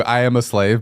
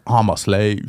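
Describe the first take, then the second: First: Said in the usual way. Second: Imitating Black American voice; a touch of Black English; Black voice impression. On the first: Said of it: "but it's like a black voice". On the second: Shown as a demonstration. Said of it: "it's like a black voice".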